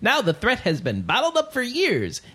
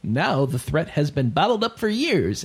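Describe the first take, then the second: First: It is read in a put-on cartoon character voice. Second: It is read in the speaker's normal voice.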